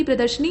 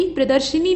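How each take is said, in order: First: प्रदर्शनी with no i after sh; correct form. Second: प्रदर्शिनी with "shi" in the middle; wrong form. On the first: Teacher correcting it, प्रदर्शनी without the shi. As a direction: say प्रदर्शनी as "pradarshnee". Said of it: "बल्कि प्रदर्शनी". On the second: Teacher showing the mistake, प्रदर्शिनी with shi. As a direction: say प्रदर्शिनी as "pradarshini". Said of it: "नहीं बल्कि". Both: Shown as a demonstration.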